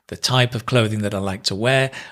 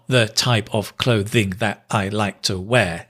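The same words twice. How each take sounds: First: Stressed syllables are strong, with weak syllables squeezed between. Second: Every syllable gets roughly equal length and weight. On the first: The speaker calls it right. "That dum da dum da dum" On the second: The speaker calls it wrong. "It's not syllable based"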